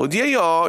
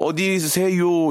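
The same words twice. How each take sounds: First: Gyeongsang lilt, pitch jumping up mid-word; 경상도 사투리. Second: Mock Seoul accent, higher and drawn out; put-on Seoul speech. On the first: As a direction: say "어디에요" with a high Gyeongsang peak, then drop. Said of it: "이렇게 하셔도". (경상도 사투리 억양) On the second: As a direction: stretch "어디세요" slowly in affected standard Seoul Korean. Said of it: "이렇게 하지 마시고". (일부러 길게 빼는 서울말 흉내) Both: Shown as a demonstration.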